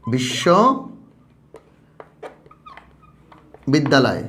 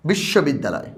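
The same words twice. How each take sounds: First: বিশ্ববিদ্যালয় stretched very slowly, every syllable held; teacher stretching বিশ্ববিদ্যালয় for the class; drawn-out syllables. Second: Said in the usual way. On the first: Shown as a demonstration. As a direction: pull বিশ্ববিদ্যালয় out slowly for counting. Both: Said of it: "দেখো, কয়টা অক্ষর আছে?".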